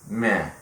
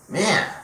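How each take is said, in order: First: It is said flatly, without enthusiasm. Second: It is said with more enthusiasm.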